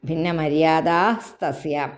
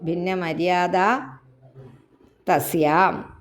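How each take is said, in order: First: The two words are joined into one. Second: The two words are said separately.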